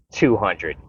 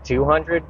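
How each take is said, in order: First: "Two hundred" stated with a falling tune; firm counter-offer. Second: "Two hundred" high and rising like a question; questioning echo. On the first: Customer bargaining with a shop owner, firm counter-offer. Tom Cruise raises his offer. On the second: Shop owner weighing a raised offer, questioning echo. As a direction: echo "Two hundred" back higher, querying it. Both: Retold or imitated.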